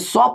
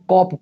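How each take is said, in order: First: The word begins with an s sound. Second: The word begins with a k sound. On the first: The speaker calls it wrong. "सॉप नहीं पढ़ेंगे" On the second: The speaker calls it right. "इसको कॉप पढ़ेंगे"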